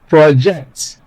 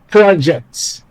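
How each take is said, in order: First: The stress is on the second syllable. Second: The stress is on the first syllable. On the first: It is a verb meaning to communicate clearly. "when you place stress on the second syllable, what you get or what you have is a verb" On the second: It is a noun meaning a piece of work. "When you place stress on the first syllable, what you get is a noun"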